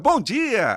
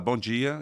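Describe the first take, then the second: First: The greeting is said loudly, with lots of energy. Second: The greeting is said flatly, with little energy.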